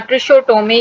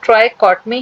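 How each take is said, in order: First: The first syllable sounds like 'tri'. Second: The first syllable sounds like 'try'. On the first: The speaker calls it wrong. "बहुत से teacher या बहुत से students इसको ट्रिकोटोमी या ट्रिशोटोमी इस तरीके से भी प्रोनाउंस कर लेते हैं" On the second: The speaker calls it right. "इसका ट्रू प्रोनाउंसिएशन ट्राइकॉटमी है"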